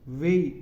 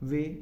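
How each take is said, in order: First: The vowel glides from 'e' to 'i'. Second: The vowel is a single steady 'e' sound. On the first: "British people... ए ई का प्रयोग करेंगे" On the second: "इनको हम बोलते हैं students से"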